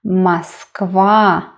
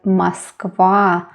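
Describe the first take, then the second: First: The stress is on the last syllable. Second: The same.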